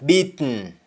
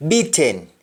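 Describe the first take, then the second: First: Sung, BEATEN as "beet-n"; sung, Jamaican syllabic N in BEATEN; Jamaican humming. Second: BEATEN with full "ten"; English-style vowel in last syllable of BEATEN; English pronunciation. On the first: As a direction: hum the end of BEATEN, no vowel. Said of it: "That is harming". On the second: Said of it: "we don't say happen". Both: Shown as a demonstration.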